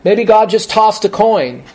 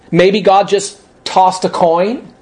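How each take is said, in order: First: Said in the usual way. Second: Slow mocking echo rising at the end; scornful disbelief. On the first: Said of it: "I put that quote in there". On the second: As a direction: drag out "Maybe God just tossed a coin?" like it's ridiculous. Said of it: "That's a stupid comment".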